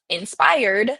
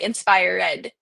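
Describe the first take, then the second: First: The ending is not a separate syllable. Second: The ending is a separate 'ed' syllable. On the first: The speaker calls it right. "we would say inspired" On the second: The speaker calls it wrong. "would pronounce them as ed"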